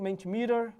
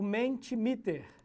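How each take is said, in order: First: The word is said with American-English-style sounds. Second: The word is said with Portuguese-style sounds.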